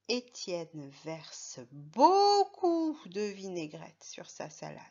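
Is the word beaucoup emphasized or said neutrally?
emphasized. The word beaucoup is strongly emphasized. "on peut insister sur le mot beaucoup"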